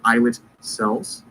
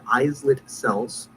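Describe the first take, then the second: First: The s in islet is silent. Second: The s in islet is pronounced. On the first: The speaker calls it right. "It's actually pronounced islets" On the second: The speaker calls it wrong. "I'm mispronouncing it just to let you know how it's spelled"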